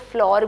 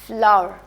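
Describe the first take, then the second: First: The word rhymes with door. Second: The word rhymes with power. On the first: The speaker calls it wrong. "लोग इसको फ्लोर भी बोलते हैं, but it's not exact pronunciation." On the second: The speaker calls it right. "फ्लावर यानी आटे को कहते हैं"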